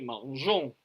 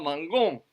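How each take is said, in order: First: The g is pronounced as a soft zh. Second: The g is pronounced as a hard g. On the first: The speaker calls it right. "on dit mangeons" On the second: The speaker calls it wrong. "on ne dit pas mangon"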